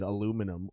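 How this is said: It is said the American way, with four syllables. "we invented aluminum over here"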